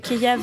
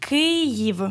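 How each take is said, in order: First: It is the Russian pronunciation of the name. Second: It is the Ukrainian pronunciation of the name. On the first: It is the name taken from another language. The speaker calls it wrong. "Kiev, c'est un nom qui vient de la langue russe" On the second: It is the country's own name for the city. The speaker calls it right. "le nom correct"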